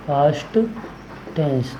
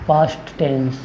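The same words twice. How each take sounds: First: past, a long pause, then tense dropping softer; word-by-word dictation. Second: Said in the usual way. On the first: Shown as a demonstration. Teacher naming the second type of tense, word-by-word dictation. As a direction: split past and tense into two separate words. Repeats term slowly for dictation.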